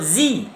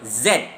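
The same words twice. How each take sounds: First: The letter is said the non-British way. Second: The letter is said the British way.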